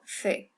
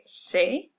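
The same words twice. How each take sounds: First: It begins with a lisped th sound. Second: It begins with a hissing s sound. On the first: This is how it sounds in Spain. "the tongue slightly between the teeth, almost like a T H" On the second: This is how it sounds in Mexico and Latin America. "a person from Mexico or Latin America would say C, like an S"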